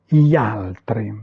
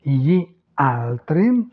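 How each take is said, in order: First: Said in the usual way. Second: Slow "gli altri", cut into two words; words separated. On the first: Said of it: "la prononciation naturelle de l'italien". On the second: Shown as a demonstration. Teacher showing beginners how to start out, words separated. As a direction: pull "gli" and "altri" apart, slowly. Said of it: "vous les séparez".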